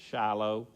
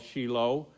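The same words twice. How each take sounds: First: It is said in a Texas accent. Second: It is said in a standard accent.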